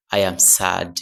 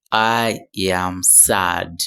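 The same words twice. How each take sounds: First: Said in the usual way. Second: Slow model phrase. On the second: Shown as a demonstration.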